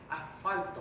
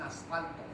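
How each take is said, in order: First: The s before the f is breathed out like h. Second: The s before the f is pronounced fully. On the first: This is how the coastal speakers say it. "aspiran antes de F, ¿no? Dicen asfalto" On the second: This is not how the coastal speakers say it. "No dicen asfalto"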